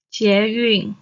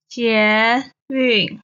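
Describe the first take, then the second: First: Said in the usual way. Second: 捷运 drawn out, 捷 rising, 运 falling; stretched teaching 捷运, rising 捷, falling 运; second, fourth tone. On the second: Shown as a demonstration. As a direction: say 捷运 syllable by syllable, rising then falling. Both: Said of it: "捷 is the second tone".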